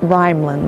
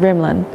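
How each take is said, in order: First: The first vowel is long, as in 'rhyme'. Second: The first vowel is short, as in 'rhythm'. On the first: The speaker calls it wrong. "It's not Rhymlin" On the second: The speaker calls it right. "I've been saying Rimlin"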